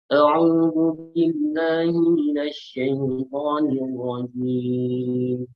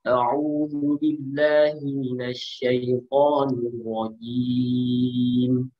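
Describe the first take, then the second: First: The voice goes through the nose, sounding nasal. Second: The voice comes out clearly from the mouth. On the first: The speaker calls it wrong. "Kalau suara hidung" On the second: The speaker calls it right. "Kalau suara normal, kira-kira begini"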